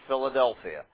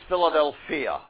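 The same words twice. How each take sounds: First: The word is stressed as the city name. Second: The word is stressed as the Greek term. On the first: It names the city. The speaker calls it wrong. "not Philadelphia. Just an accent is all that's different from the city" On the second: It names brotherly love. The speaker calls it right. "Love of brethren is Philadelphia"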